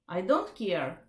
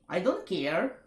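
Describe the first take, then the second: First: It is said in a calm, neutral tone. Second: It sounds accusing or mocking, not neutral. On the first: The listener feels heard without being provoked. The speaker calls it right. "Just say neutral" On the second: The listener feels judged or mocked. The speaker calls it wrong. "don't say"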